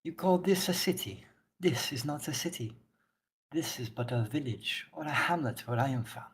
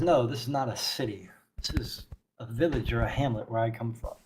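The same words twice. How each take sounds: First: Put-on soft, wobbly go at a Wakanda accent; lightly put-on Wakanda accent; attempted Wakanda accent. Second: Quiet, lightly voiced character retake; understated solemn zealot; stern zealot priestess, measured. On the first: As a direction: attempt Okoye's Wakanda accent, not quite consistent. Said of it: "I don't remember what accent she had". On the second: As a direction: correct them softly with grave certainty. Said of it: "She says".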